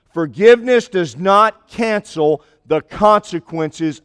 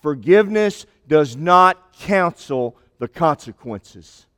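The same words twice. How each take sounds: First: Slow, with "Forgiveness" lifted and held at the start; stress on forgiveness. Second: Slow, with "not" leaned on hard; stress on not. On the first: Preacher repeating his point to the congregation, slow with "Forgiveness" stressed. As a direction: open on "Forgiveness" as the key word. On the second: Preacher driving home his point to the congregation, slow with "not" stressed. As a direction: land "not" as the weight of the line. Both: Shown as a demonstration. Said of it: "But I want you to get this point".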